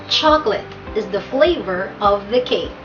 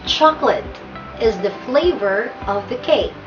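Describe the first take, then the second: The two takes are said the same way.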